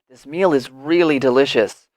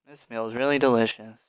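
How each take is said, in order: First: It is said with strong feeling and emphasis. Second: It is said flatly, without feeling or emphasis. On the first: The speaker feels strongly about the meal. The speaker calls it right. "it's very natural to say with emotion" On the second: The speaker does not really care about the meal. The speaker calls it wrong. "Why would I say delicious if I feel so bleh?"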